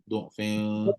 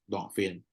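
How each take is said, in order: First: The first vowel is a rounded 'u' sound. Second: The first vowel is an open 'a' sound. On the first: "yang baca dengan dhammah pula" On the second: "tadi you baca dengan fathah"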